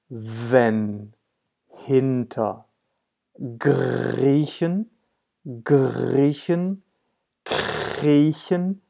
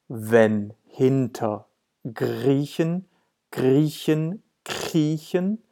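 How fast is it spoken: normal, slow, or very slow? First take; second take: very slow; slow. First: It is spoken very slowly, word by word. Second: It is spoken somewhat more slowly. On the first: "Even slower" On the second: "One more time, a bit slower"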